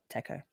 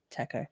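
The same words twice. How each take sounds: First: "Taco" said quietly with a broad "a", "tahco"; other taco. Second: "Taco" said quietly with a flat "a", "tæco"; different taco. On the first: Streamer trying the other way of saying taco. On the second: Streamer trying one way of saying taco. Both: Shown as a demonstration. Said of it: "the great taco debate".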